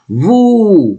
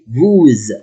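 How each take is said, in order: First: The word ends in a vowel, no z sound. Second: The word ends with an added z sound. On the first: No vowel follows the word. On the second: A verb starting with a vowel follows.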